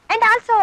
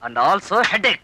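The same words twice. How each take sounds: First: Raised, louder lead-in to a punchline; grand build-up. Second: Dropped, drawn-out comic letdown; deflating punchline. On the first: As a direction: build up the praise, higher and louder. Praises her, building up before punchline. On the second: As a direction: let it sink slowly after the praise. Punchline undercuts the praise. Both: Acted.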